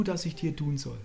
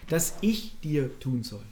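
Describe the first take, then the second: First: Said in the usual way. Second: Slow, with the weight on "ich"; Betonung auf „ich“. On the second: Shown as a demonstration. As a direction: stretch and stress "ich", then fall away. Repeats question, shifting weight to ich. („ich“ langsam und deutlich betonen)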